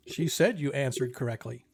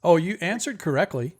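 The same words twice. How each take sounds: First: Said in the usual way. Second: Lightly voiced sphinx, lively; sphinx's reply. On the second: Sphinx answers the players' wrong guess, lightly acted reply. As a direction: correct them with a lilting, lightly acted reply.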